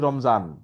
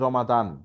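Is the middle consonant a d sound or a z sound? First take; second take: z; d. First: The middle consonant is a z sound. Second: The middle consonant is a d sound. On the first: "জ উচ্চারণও হয়" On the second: "দ উচ্চারণও হয়"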